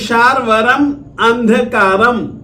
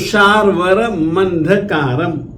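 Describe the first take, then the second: First: The two words are said separately. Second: The final m runs into the next word.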